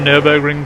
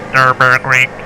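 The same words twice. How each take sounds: First: The name is said in a relaxed, easy way. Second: The name is said in a stiff, robotic way. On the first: "it's easier on my nose and it's easier on my sinuses" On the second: "I sound like a robot, full on robot"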